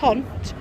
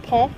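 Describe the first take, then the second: First: It is said with an English-style pronunciation. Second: It is said with a French-style pronunciation.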